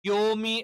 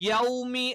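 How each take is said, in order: First: The first vowel is a plain 'o'. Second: The first vowel is the diphthong 'aw'. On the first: The speaker calls it wrong. "ശ്രദ്ധിക്കാതെ ഓതി കഴിഞ്ഞാൽ യോമി എന്ന് വരും" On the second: The speaker calls it right. "യൗമി എന്നാണ്"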